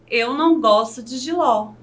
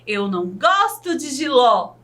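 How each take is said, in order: First: It is said in a plain, neutral statement tone. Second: It is said with strong exclamatory emphasis. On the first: It is a simple statement of fact. "Sem o ponto de exclamação, com o uso do ponto final" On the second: The speaker feels strongly about it. "Com um ponto de exclamação"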